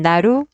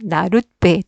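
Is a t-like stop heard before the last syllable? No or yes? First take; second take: no; yes. First: It ends in a vowel, then a tense b. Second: A t-like stop comes before the tense b. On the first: "발음할 때는 나루, 빼, 된소리가 됩니다" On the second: "발음상에는 디귿으로 발음이 나잖아요"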